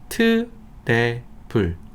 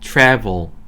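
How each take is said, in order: First: It is said with Korean-style pronunciation. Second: It is said with English pronunciation. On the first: "이거 어떻게 읽나요, 우리가?" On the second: "영어로요?"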